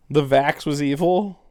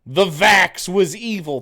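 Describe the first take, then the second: First: A doubtful echo, rising at the end; incredulous question. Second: Slow, higher, louder mock reading of the name; slow mocking recital of a username. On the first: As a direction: repeat the name back in disbelief. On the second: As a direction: drag out the troll's handle like a joke. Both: Shown as a demonstration.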